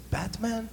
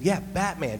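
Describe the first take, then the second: First: Put-on high, puzzled child asking in broken English. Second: Said in the usual way. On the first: Boy in Cambodia asking about the shirt, in light broken English. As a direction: mimic a kid trying out a strange English word. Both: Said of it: "Like, in, in broken English".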